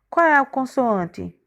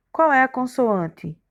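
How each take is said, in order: Both takes have the same delivery.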